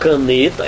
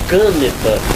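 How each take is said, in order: First: The stress falls on the middle syllable. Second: The stress falls on the first syllable. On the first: The speaker calls it right. "Ou é a penúltima, caneta, é a pronúncia que existe" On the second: The speaker calls it wrong. "ou é a antepenúltima ... aí ficaria caneta. Não existe caneta"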